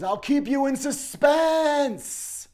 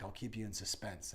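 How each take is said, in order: First: Very high, loud, slow drawn-out sinister taunt; menacing taunt. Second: Said in the usual way. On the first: Retold or imitated. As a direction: stretch every word out to threaten. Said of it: "And he says". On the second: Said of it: "as he's like".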